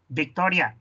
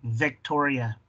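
First: It is pronounced with Spanish sounds and stress. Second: It is pronounced with English sounds and stress.

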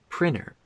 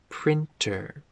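First: The word is said quickly with sounds reduced. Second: The word is said carefully with every sound. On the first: The speaker calls it right. "We say printer when we're speaking quickly" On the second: The speaker calls it wrong. "We don't say printer"

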